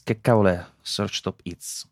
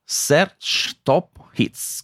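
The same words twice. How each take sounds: First: Said in the usual way. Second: Very slow, drawn-out mock English; fake English. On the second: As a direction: stretch out Search Top Hits in a fake accent. Finto inglese.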